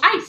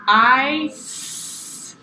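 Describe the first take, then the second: First: The word is said quickly. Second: The word is stretched out slowly.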